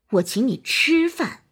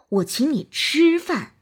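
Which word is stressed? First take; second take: 吃; 吃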